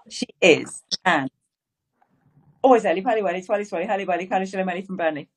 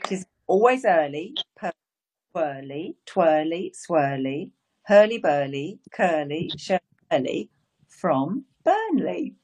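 First: It is said fast. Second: It is said slowly.

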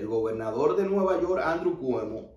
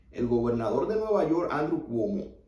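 Both takes have the same delivery.

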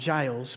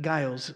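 First: The name begins with a soft J sound. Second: The name begins with a hard G sound. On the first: "some people pronounce it with a J sound" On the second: "but Giles is most European"

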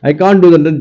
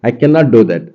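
First: The words can and not are contracted together. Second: The words can and not are split and stressed. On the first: The speaker is simply unable to do it. "Just நார்மலாக சொல்கிறது" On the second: The speaker has firmly decided not to do it. "நான் ஒரு decision எடுத்துட்டேன், அதில் மாற்றிக்க மாட்டேன்"

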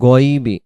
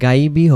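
First: The first vowel is heavy with rounded lips. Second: The first vowel is thin and open. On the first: The speaker calls it right. "মানে মুখটা গোল হয় যে অক্ষরগুলো বলার সময় সেটাই হলো মোটা।" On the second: The speaker calls it wrong. "এখানে গাইবি হবে না"

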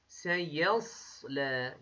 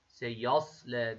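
First: The ya sound is pronounced thin. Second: The ya sound is pronounced thick. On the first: The speaker calls it right. "ye ince, sat kalın. Bu şekilde telaffuz ediyoruz" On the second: The speaker calls it wrong. "Y kalın bir harf değil ki ya şeklinde birleştirelim"

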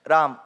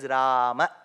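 First: It is said in a North Indian way. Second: It is said in a Sanskrit way. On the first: The speaker calls it wrong. "the North Indian version, Ram, Govind, Krish, that is also wrong" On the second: The speaker calls it right. "if we follow Sanskrit, it is neither Rama or Ram, it is Rama"

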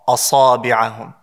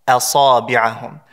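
First: The opening hamza sounds heavy and thick. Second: The opening hamza sounds light and thin. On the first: The speaker calls it wrong. "people say asa, asabi'ahum" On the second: The speaker calls it right. "the Hamza is pronounced with lightness"

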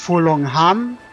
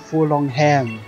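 First: It is said without a British English accent. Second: It is said with a British English accent. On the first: The speaker calls it wrong. "nicht Furlongham" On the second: The speaker calls it right. "Man muss das ein bisschen britisch-englisch aussprechen"

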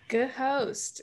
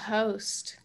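First: The word is said with an audible H. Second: The word is said with a silent H.

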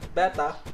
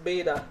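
First: It is said like the fish name. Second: It is not said like the fish name. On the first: The speaker calls it wrong. "not Beta, because this is not Beta Fish" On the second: The speaker calls it right. "this is pronounced Beta"

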